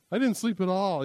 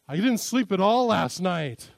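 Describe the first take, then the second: First: Mock complaint, a bit louder; exaggerating. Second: Slow, loud mock complaint; exaggerating. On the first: Husband repeats his exaggeration to his wife, mock complaint. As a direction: lay the exaggeration on again. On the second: Husband exaggerates to his wife, slow and loud. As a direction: overstate it on purpose. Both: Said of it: "accuses me of exaggerating".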